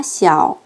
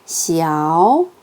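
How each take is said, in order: First: 시아오 falling low; lower-pitched 시아오, kept down at the bottom; third tone. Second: Long, slow rising 시아오; raised to second tone. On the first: Teacher demonstrates the word alone, 시아오 in low third tone. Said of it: "삼성으로 합니다". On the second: Teacher shows the tone change, 시아오 lifted in a rise. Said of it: "가볍게 이성으로 올립니다". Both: Shown as a demonstration.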